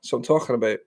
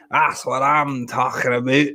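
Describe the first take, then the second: First: Said in the usual way. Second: "That's what I'm talking about" slower in a put-on character voice. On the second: Shown as a demonstration. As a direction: drag it out in a mock catchphrase voice.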